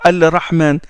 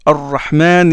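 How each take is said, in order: First: The L is pronounced clearly before the R. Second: The L merges into a doubled R sound. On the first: The speaker calls it wrong. "On ne dit pas Al-Rahman" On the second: The speaker calls it right. "le lemme entre dans le Ra et le Ra est affecté d'une shadda"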